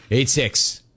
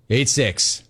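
Both takes have the same delivery.

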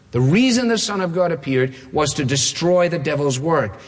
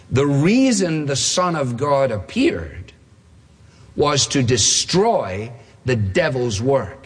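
First: Said in the usual way. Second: Slow, with a long pause mid-sentence; deliberate quote. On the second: Real, not acted. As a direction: read the verse out slowly and weightily. Announced quote, read out for weight.

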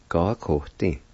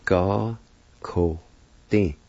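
First: Said in the usual way. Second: Slow teaching demo, pause after each syllable. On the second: Shown as a demonstration. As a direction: separate each syllable clearly. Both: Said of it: "is pronounced like this".

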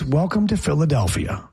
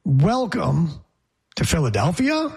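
First: "Welcome to Philadelphia." in one smooth phrase, weight on "to"; right delivery. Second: Halting, a pause after "Welcome"; wrong delivery. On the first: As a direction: run it together, leaning on "to". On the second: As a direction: break it up: "Welcome", a stop, then "to Philadelphia.". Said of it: "it's not". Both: Shown as a demonstration.

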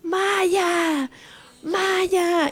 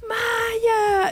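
First: High drawn-out calls for a lost dog; retold frantic calling for a lost husky; calling out her dog. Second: A sobbing high scream of the dog's name; tearful telenovela-style scream as her dog comes home; crying shout. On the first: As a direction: call her name across the town, retold. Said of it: "como loca llorona gritando". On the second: Retold or imitated. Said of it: "así gritando".

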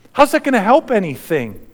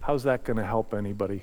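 First: Raised, pressing voice; disbelieving question. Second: Much softer, lower, quicker; hushed question. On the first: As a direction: challenge the crowd's logic. Preacher repeats question, then soft. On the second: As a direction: murmur it in awe. Same question, now hushed reflection. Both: Acted.

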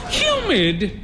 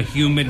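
First: High, incredulous echo; high questioning cry; cried query. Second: Said in the usual way. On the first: A narrator's reading. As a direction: throw the word back in a high-pitched cry. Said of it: "she cried".

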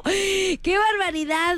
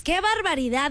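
First: Asombro exagerado. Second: Said in the usual way. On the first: Real, not acted.

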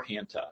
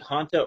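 First: Hanta with the short A of "hand"; alternative pronunciation. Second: Hanta with a broad AH, "HAHN-ta"; first pronunciation. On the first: Doctor offers the other way to say the virus, Hanta as HAN-tuh. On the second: Doctor answers how to pronounce the virus, Hanta said HAHN-tuh. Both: Shown as a demonstration. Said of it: "You can pronounce it".

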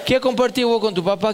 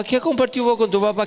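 First: "¿Qué" hit first and rising, rest fast; fast retort punching the opening "¿Qué"; stress on qué. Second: "compartido" punched, "¿Qué" left light, fast; fast retort punching "compartido"; stress on compartido. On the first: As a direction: lean on "¿Qué" at the start of the question. Repeated question, stress on qué. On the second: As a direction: lean on "compartido" in the repeat. Repeated question, stress on compartido. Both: Retold or imitated.

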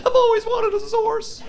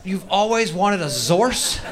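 First: Put-on very high squealing teen; spoiled girl. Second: Slow, stretched disbelief; incredulous. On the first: Spoiled girl squealing over her gift, very high. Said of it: "She's like". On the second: Real, not acted. Comic repeating the girl's wish in slow disbelief. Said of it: "comic repeats her line incredulously".

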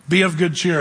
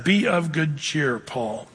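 First: Said in the usual way. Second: Slow and soft, a quiet comfort; the Lord soothing Paul, slow and soft; gentle comfort. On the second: Acted. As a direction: comfort a beaten man at night, slowly.

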